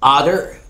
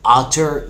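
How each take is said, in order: First: It is said with a soft, flapped American t. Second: It is said with a crisp British t.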